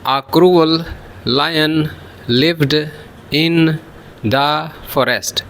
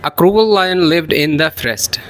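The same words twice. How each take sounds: First: The words are said plainly and separately. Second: The words run together, linked smoothly.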